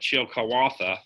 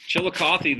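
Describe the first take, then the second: First: The name is said in its original native form. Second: The name is said in its familiar local form.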